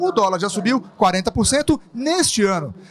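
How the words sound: The emphasis falls on neste ano. The time period of the rise is what matters. "por fim, o período em que o dólar sofreu tal aumento"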